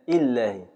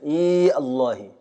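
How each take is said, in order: First: The y sound is dropped entirely. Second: The y sound is kept with no vowel. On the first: "إسقاط الياء بالكلية" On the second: "بعد إسقاط الواو وإبقاء الياء ساكنة"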